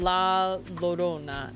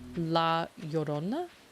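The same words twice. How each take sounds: First: The double L sounds like an English L. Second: The double L sounds like an English Y. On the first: The speaker calls it wrong. "I think I pronounced that wrong" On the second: The speaker calls it right. "Isn't two L's the Y?"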